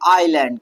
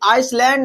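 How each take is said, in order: First: The word is said without an s sound. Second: The word is said with an s sound. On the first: The speaker calls it right. "बल्कि हम क्या पढ़ेंगे भैया, आइलैंड" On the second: The speaker calls it wrong. "आइसलैंड नहीं पढ़ा जाएगा"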